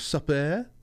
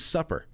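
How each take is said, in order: First: It is said in a French accent. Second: It is said in a plain American accent.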